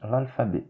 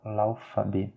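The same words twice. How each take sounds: First: "l'alphabet" with a true L sounded before the f; L correct. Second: "l'alphabet" with the L before f lost, like "laofabé"; L mal prononcé. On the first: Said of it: "non, c'est". (« l'alphabet » avec un L net avant le f) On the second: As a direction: say "l'alphabet" wrongly, L turned into a vowel. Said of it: "Ce n'est pas". (« l'alphabet » fautif, sans vrai L avant le f) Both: Shown as a demonstration.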